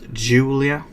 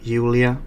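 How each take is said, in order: First: The name is pronounced the English way. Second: The name is pronounced the Swedish way. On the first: "not Julia" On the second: "in my language, when we say a J, we pronounce it Jul, like Julia"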